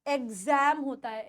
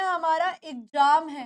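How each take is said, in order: First: एग्जाम said eg-zem with a z; correct way. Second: एग्जाम said ig-jaam with a j; the wrong एग्जाम, ज sound; common mistake. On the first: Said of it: "एग्जाम नहीं होता". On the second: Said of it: "बहुत बच्चे गलती करते हैं". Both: Shown as a demonstration.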